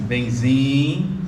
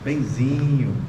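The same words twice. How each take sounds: First: It is said in a stern, displeased tone. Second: It is said in a sweet, affectionate tone. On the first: He has done something wrong. "o que que eu fiz de errado?" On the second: She is being loving. "oh, carinhosa"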